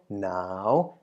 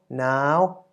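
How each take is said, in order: First: The syllable is said with a rising tone. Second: The syllable is said with a high tone. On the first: "and also the rising tone" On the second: "resulting in a high tone"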